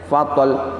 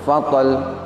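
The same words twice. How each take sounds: The two takes are said the same way.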